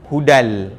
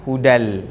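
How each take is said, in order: No difference in how they are said.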